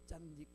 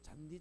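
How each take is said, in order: First: The first consonant is tense and hard. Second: The first consonant is plain and soft. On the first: "경상도 사람 읽을 때요" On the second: "잔디를 안 읽고"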